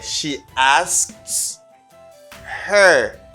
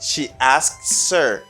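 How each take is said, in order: First: The h of 'her' is clearly pronounced. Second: The h is dropped, linking 'asks' into 'er'.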